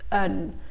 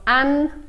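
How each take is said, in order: First: The vowel is a weak, relaxed schwa. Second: The vowel is a full, clear sound. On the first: The speaker calls it right. "it's un" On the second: The speaker calls it wrong. "So it's not an"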